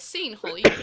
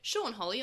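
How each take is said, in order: First: The first name sounds like the word scene. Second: The first name does not sound like scene. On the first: The speaker calls it wrong. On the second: The speaker calls it right.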